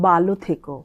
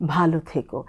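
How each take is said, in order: First: The first word is short and not breathy. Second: The first word is drawn out and breathy. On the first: The speaker calls it wrong. "ভালোটা না টেনে বলি তাহলে ওখানে শোনা যাবে মাইক্রোফোনে" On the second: The speaker calls it right. "মহাপ্রাণের আগের শব্দটা সবসময় একটু টেনে ড্রল করে বলতে হয়"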